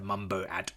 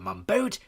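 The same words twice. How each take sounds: First: The name is split as Mumbo plus at. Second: The name is split as Mum plus boat. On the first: It is the boat of a character named Mumbo. "presumably Mumbo's boat" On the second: It is a mother's boat. "not your mother's boat"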